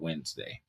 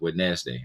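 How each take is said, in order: First: The word is said in the usual short way. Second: The word is said sounding out every letter. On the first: This is the pronunciation others demand. "I have been forced to say the word Wednesday" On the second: This is how the written word looks. "when really the word is Wednesday"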